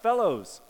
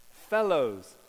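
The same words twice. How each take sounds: First: Loud, higher call across the water. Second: Loud call across the water, a little higher. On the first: Jesus calling out from the beach to the disciples, loud and high. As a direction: call out to the boat from the shore. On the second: Jesus hailing the fishing disciples from the beach, loud. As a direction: hail the boat from the shore. Jesus calls out again, retold. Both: Acted.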